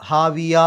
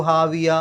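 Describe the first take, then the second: No difference in how they are said.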